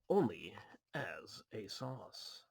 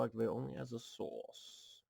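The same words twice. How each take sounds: First: "as a sauce" drawn out very slowly and lower; punning misread. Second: Said in the usual way. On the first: Shown as a demonstration. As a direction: savour the word sauce, slow.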